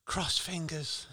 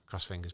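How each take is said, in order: First: Drawn out, high pitched; slow and high. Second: Said in the usual way. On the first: Acted. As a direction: stretch it out slowly. Said twice, first drawn out.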